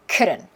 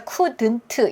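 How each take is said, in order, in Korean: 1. t는 부드러운 탄설음으로 발음합니다. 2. t는 분명하게 터뜨리는 t로 발음합니다. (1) "한국어 리을스럽게 편안하게" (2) "couldn't 이렇게 안 하고"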